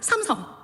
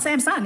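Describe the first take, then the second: First: The name is said with Korean pronunciation. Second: The name is said with English-style pronunciation. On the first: The speaker calls it right. "it's Samsung" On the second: The speaker calls it wrong. "Samsung is not Samsung"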